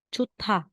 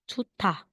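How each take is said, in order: First: The middle consonant is aspirated, with a puff of air. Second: The middle consonant is aspirated, with a puff of air.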